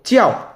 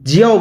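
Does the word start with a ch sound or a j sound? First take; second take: ch sound; j sound. First: The word starts with an unvoiced ch sound. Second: The word starts with a voiced j sound. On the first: The speaker calls it right. "জের উচ্চারণ হচ্ছে চ" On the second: The speaker calls it wrong. "জিয়াও বলবেন না"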